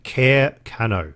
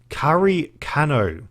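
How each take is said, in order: First: The first word sounds like 'care'. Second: The first word sounds like 'kah-ree'. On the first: "if I just read it phonetically, it's like" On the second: "I'm going to mispronounce this"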